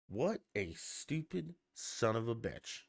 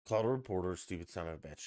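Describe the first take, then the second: First: Slow, drawn-out imitated insult; unhurried, deliberate sarcastic put-down; sarcastic aside. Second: Said in the usual way. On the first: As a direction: quote the sarcastic insult slowly, word by word. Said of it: "and this is sarcastically".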